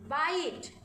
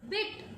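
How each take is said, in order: First: "बाइट" with a long "eye" vowel; long I sound. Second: "बिट" with short "i" as in pig; short I sound. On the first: Teacher contrasts words without and with E, long sound. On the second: Teacher contrasts words without and with E, short sound. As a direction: keep the vowel brief in "बिट". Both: Shown as a demonstration. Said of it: "how the sound changes by adding E".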